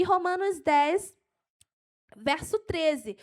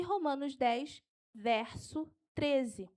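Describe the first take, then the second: First: Keyed-up, raised verse reference; excited preacher reaching the last verse; carried away. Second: Slow dictation, drawn out at the end; unhurried, measured verse reference; slow for note-taking. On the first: Real, not acted. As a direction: deliver the citation with enthusiasm. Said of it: "eu me empolgo". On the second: Shown as a demonstration. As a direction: space out the reference for writers. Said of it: "Eu vou falar devagar".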